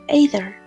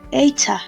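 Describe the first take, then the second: First: It is said in an American accent. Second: It is said in a British accent.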